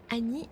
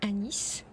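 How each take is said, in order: First: The word ends on a vowel, final S silent. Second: The word ends with a clearly sounded S. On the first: "si le S se prononce" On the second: "avec un S"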